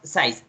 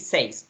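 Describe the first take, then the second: First: The vowel sounds like 'eye'. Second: The vowel sounds like 'eh'. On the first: The speaker calls it wrong. "You tell me size, but it's not size" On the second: The speaker calls it right. "The correct pronunciation is say"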